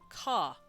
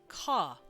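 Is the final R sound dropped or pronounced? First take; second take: dropped; dropped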